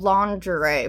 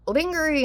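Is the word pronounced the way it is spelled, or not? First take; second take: not as spelled; as spelled. First: The word is not pronounced as it is spelled. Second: The word is pronounced the way it is spelled. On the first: The speaker calls it right. "instead of lingerie" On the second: The speaker calls it wrong. "I used to say uh, lingerie"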